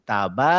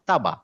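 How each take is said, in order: First: The first vowel is drawn out long. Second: The first vowel is short. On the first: "যখনই আমি এখানে একটা আলিফ দিব তখন বলবো" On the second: "আমি যদি ফাথা থাকে এটা বলবো তা, এটা বলবো বা"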